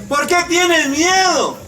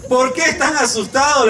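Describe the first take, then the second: First: Higher, probing question; pointed question. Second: Said in the usual way. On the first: Shown as a demonstration. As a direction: ask it straight at them. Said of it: "También nos pregunta todos los días". (pregunta incisiva y aguda) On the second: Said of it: "les dice a sus discípulos".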